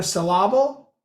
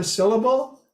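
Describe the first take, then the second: First: Syllable stressed in the middle, suh-LAH-bul; misplaced stress. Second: Said in the usual way. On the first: Shown as a demonstration. Lecturer showing misplaced emphasis, syllable as suh-LAH-bul. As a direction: put the emphasis wrongly on the second part of syllable.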